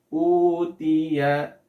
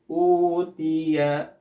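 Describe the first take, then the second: First: The long vowel is held for two counts. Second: The long vowel is held for two counts.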